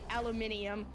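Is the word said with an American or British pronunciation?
British. It is said with five syllables, British style. "I guess British people say aluminium"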